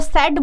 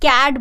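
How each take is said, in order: First: The word begins with an s sound. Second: The word begins with a k sound. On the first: The speaker calls it wrong. "नहीं तो सेट बोलना चाहिए ना" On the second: The speaker calls it right. "हम सी A T कैट बोलते हैं"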